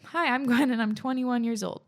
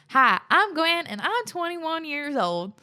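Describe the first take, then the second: First: It is read in a normal accent. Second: It is read in a country accent.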